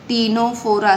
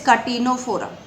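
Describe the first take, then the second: First: The word starts with a t sound. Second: The word starts with a k sound. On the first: "so it is pronounced at टीनोफोरा, सी is silent" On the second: "British English में it is called as कटीनोफोरा"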